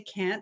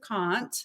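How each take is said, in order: First: It is said with an American accent. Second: It is said with an Australian accent. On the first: "I took some dialect lessons and I learned how to say can't" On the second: "instead of can't"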